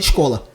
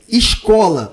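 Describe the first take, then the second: First: It is said in a Recife accent. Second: It is said in a Rio de Janeiro accent. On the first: "O recifense fala escola" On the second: "o carioca fala"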